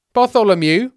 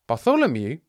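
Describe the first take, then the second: First: "Bartholomew" loud and high, emphatically confirmed; forceful, pitched-up "Bartholomew"; insistent repeat. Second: "Bartholomew" as a rising question, only mildly raised; doubtful, questioning "Bartholomew?"; puzzled query. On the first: Disciple insists on his name. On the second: Peter queries the name. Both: Acted.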